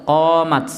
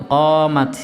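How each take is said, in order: Both takes have the same delivery.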